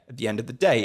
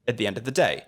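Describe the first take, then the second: First: The words run together as one smooth unit. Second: The same.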